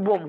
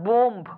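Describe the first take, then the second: First: বোম ending on m, with no b sound; silent final b. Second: বোম্ব with the final b sounded after the m; final b pronounced. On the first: Teacher shows students the correct word, silent b in বোম. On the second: Teacher shows students the mistake, final b pronounced in বোম্ব. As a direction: say বোম্ব wrongly, voicing the closing b. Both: Shown as a demonstration. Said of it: "শুধু বোম উচ্চারণ হবে, বিটা উচ্চারণ হবে না".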